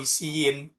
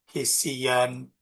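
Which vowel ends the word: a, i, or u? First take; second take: i; a. First: The word ends with an -in sound. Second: The word ends with an -an sound. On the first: The speaker calls it wrong. "atau hisiin karena sudah ada alif" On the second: The speaker calls it right. "ada alif"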